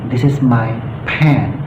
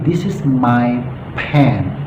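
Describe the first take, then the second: No difference in how they are said.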